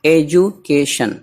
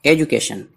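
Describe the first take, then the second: First: education slowly, in separated parts; syllable by syllable. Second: Said in the usual way. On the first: Shown as a demonstration. Teacher showing a vowel-rich word, education syllable by syllable. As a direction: break education into slow chunks with small gaps.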